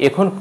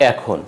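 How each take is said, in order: First: এখন starting with closed "e"; closed initial vowel. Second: এখন starting with open "ae"; এখন with "ae" as in "cat"; open initial vowel. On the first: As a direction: say এখন as "ekhon". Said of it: "বলবো না". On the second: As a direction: say এখন as "aekhon". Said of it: "উচ্চারণ হবে". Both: Shown as a demonstration.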